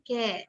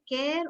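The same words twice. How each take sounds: First: "care" with the final R dropped; silent R. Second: "care" with the final R sounded; R pronounced. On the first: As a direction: say "care" as "keh", no R. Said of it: "You say the R?". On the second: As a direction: say "care" ending in a clear R. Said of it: "you're going to pronounce the R". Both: Shown as a demonstration.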